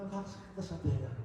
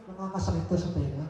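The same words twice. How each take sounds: First: Fast and softer, almost to himself; quick repeated complaint. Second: Fast, light quoted gripe; quick retold complaint. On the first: Retold or imitated. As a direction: quieter fast echo of her words. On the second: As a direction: rattle it off like her complaint. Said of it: "Sabi niya".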